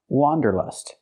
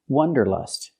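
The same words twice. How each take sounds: First: The first vowel is an open ah sound. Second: The first vowel is a short uh sound. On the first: The speaker calls it right. "It's pronounced wanderlust. ... has the sound ah, like hot and stop" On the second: The speaker calls it wrong. "The word is not pronounced wanderlust. ... We cannot use the short uh sound like cup and up"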